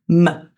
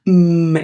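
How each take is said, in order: First: The m is followed by an added vowel. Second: The m is a pure hum without vowel. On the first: The speaker calls it wrong. "instead of m" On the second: The speaker calls it right. "the unvoiced. So like mm"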